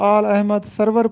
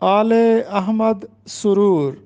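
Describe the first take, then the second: First: The last word is said as sarwar. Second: The last word is said as suroor. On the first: The speaker calls it wrong. "अक्सर तालिब इल्म इसको आल Ahmad सरवर पढ़ते हैं" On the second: The speaker calls it right. "इसका दुरुस्त तलफ़ुज़ है"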